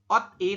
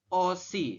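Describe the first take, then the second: First: The consonant stays with the first syllable. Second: The consonant moves to start the second syllable. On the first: The speaker calls it wrong. "Jadi Anda membacanya bukan ot i" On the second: The speaker calls it right. "tapi dibacanya adalah osi"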